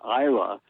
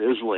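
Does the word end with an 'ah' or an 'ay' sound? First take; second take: ah; ay. First: The word ends with an 'ah' sound. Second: The word ends with an 'ay' sound. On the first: The speaker calls it right. "But it's Isla" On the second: The speaker calls it wrong. "Everybody pronounces it Islay. It's not"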